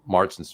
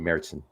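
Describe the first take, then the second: First: The word is said with an English-style pronunciation. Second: The word is said with a German-style pronunciation. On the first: The speaker calls it wrong. "Excuse me" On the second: The speaker calls it right. "Say it correctly, right?"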